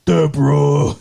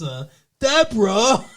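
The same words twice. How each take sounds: First: Louder, a hint of Ray calling his wife; mild sitcom-husband call to his wife; lightly voiced Ray Romano yelling for Deborah. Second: Retry at Ray. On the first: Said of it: "now you sound like Ray". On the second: Retold or imitated. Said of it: "No, that's, that's".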